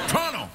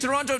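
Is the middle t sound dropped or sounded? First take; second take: dropped; sounded. First: The middle t is dropped entirely. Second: The middle t is clearly pronounced. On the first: "I pronounce it like locals say Toronto. I call it Torno. ... I don't have time for T's" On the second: "Do you mean Toronto?"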